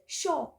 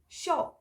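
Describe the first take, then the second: First: The r sound at the end is dropped. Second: The r sound at the end is dropped.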